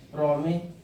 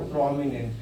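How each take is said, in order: First: "प्रोमिनेंट" split as "प्रोमि... नेंट"; "प्रोमिनेंट" held open after "प्रोमि", then finished; pronunciation broken into parts. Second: Said in the usual way. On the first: Shown as a demonstration. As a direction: sound out "प्रोमिनेंट" in two chunks with a pause between. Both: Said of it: "इसका क्या pronunciation था?".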